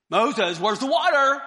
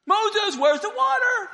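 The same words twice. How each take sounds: First: Loud call through the tent wall. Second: Much higher, loud repeated call; shrill nagging call. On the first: Crowd outside the tent calling Moses at night, loud nagging call. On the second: Crowd outside the tent calling Moses again, higher and louder. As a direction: pester him, higher and louder. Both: Acted.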